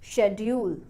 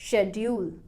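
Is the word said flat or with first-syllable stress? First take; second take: first-syllable stress; first-syllable stress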